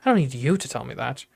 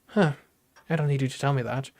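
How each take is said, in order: First: One word is clearly emphasized. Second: It is read neutrally, without special emphasis.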